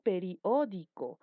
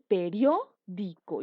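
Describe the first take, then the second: First: The word is said in five syllables. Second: The word is said in four syllables. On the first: The speaker calls it wrong. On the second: The speaker calls it right.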